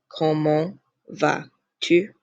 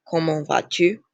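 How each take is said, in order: First: "Comment... vas... tu" spaced out word by word; slow French pronunciation demonstration; slow model phrase. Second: Said in the usual way. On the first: Shown as a demonstration. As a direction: teach it slowly, pausing between words. Teacher repeats it slowly for learners.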